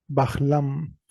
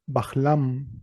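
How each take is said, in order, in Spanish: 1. Antes de la l hay un sonido de h aspirada. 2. Antes de la l hay un sonido de h aspirada.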